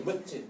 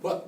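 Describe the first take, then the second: First: 멋지 said with the final sound carried over as ji; wrong pronunciation. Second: 멋 said as one closed syllable ending in a stopped t; right pronunciation. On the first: Teacher shows students the wrong way, 멋지 with ji ending. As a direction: say 멋지, linking the batchim into a ji syllable. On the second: Teacher shows students the right way, 멋 as one closed syllable. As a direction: clip 멋 short with an unreleased final t. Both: Shown as a demonstration. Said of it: "멋지가 아니고 멋".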